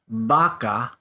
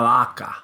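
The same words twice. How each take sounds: First: The lips close fully on the first consonant. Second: The lips stay apart on the first consonant. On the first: "starts with a V" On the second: "then you say la vaca, and your lips don't touch"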